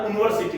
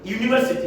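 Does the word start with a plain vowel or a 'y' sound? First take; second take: plain vowel; y sound. First: The word starts with a plain vowel sound. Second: The word starts with a 'y' consonant sound. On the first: The speaker calls it wrong. "इसका उच्चारण यूनिवर्सिटी होता है जो कि नहीं है" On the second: The speaker calls it right. "यूनिवर्सिटी है ये"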